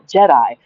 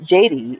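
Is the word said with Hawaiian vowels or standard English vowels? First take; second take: standard English; Hawaiian vowels. First: It is said with standard English vowel sounds. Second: It is said with Hawaiian-style vowel sounds. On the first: "instead of Jedi" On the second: "it would be Jedi if he was pronouncing it in Hawaiian"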